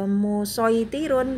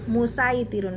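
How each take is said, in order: First: The s sound is heavy and emphatic. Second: The s sound is light and plain. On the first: The speaker calls it wrong. "jangan baca uh, musoitirun" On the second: The speaker calls it right. "musaitirun pakai sin"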